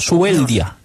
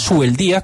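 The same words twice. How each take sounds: First: The stress falls on the syllable 'del'. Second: The stress falls on the syllable 'di'. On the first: The speaker calls it right. "al no tener ese acento ... sino Subeldía" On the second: The speaker calls it wrong. "tú no dices Subeldía como aquel maestro"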